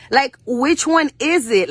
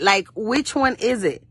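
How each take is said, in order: First: Higher, slower, with weight on one; emphatic question. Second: Said in the usual way. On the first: Acted. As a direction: demand an answer, slowly. Repeated rhetorical question, first take.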